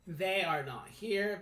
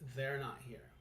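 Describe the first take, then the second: First: Both words are said separately and in full. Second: The two words are merged into one contraction. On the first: The speaker calls it wrong. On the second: The speaker calls it right.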